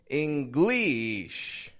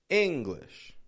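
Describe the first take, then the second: First: Both syllables are stretched out evenly. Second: A strong first syllable, then a weak one. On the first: The speaker calls it wrong. "I'm not stretching out the whole word" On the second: The speaker calls it right. "I'm just breaking it up"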